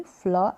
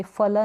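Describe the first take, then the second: First: फ्ल with f running straight into l, "fla"; half f. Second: फल with a vowel between f and l, "fa-la"; wrong split cluster. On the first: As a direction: blend f and l in फ्ल with no vowel between. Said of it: "आधा फ हो जाएगा". (फ्ल, आधे फ के साथ) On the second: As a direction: separate f from l in फल. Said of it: "फल नहीं". (फल, पूरे फ के साथ) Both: Shown as a demonstration.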